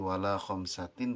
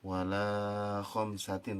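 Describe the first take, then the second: First: The vowel is held for a normal short length. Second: The vowel is stretched out for too long. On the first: The speaker calls it right. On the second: The speaker calls it wrong.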